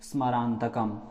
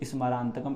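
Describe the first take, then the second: First: The opening s is only a brief half sound. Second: The opening s is sounded as a full syllable. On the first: The speaker calls it right. "केवल आधा सा ही उच्चारण में निकले" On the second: The speaker calls it wrong. "इस प्रकार से ना निकले"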